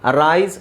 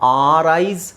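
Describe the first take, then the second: First: It begins with a short, weak 'uh' vowel. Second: It begins with a long, full 'ar' vowel. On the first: The speaker calls it right. "ಇಲ್ಲೇ clear ಆಗಿ ನಾನು ಹೇಳ್ತಾ ಇದ್ದೀನಿ" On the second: The speaker calls it wrong. "ಆರ್ ಅಂತ ಹೇಳಂಗಿಲ್ಲ"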